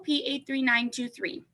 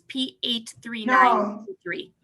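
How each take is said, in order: First: The number is said very quickly. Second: The number is said slowly and clearly.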